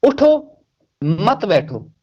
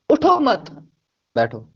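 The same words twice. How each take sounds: First: Comma after उठो, telling someone to get up and not sit; pause after उठो. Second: Comma after मत, telling someone not to get up but sit; pause after मत. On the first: Explaining why grammar matters, pause after उठो. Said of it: "बीच में comma आ गया". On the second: Showing the meaning flipped, pause after मत. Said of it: "grammar ने इसका meaning उलट पलट किया". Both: Shown as a demonstration.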